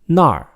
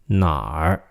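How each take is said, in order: First: The syllable has a sharply falling tone. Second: The syllable has a low dipping tone. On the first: It means there. "那儿 with a fourth tone, meaning there" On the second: It means where. "哪儿 meaning where, with a third tone"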